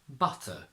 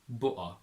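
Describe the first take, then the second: First: The T is fully pronounced. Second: The T becomes a glottal stop.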